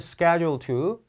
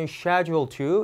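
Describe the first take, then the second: First: It is said with an American accent. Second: It is said with a British accent. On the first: "미국 발음일 때는" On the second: "영국 발음일 때는"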